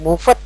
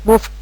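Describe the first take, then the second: First: The ending is sounded out as a full syllable. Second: The ending is a short d sound only. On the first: The speaker calls it wrong. "Jangan dibaca utuh moved gitu, salah" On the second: The speaker calls it right. "jadi kayak ada penekanan D di belakangnya"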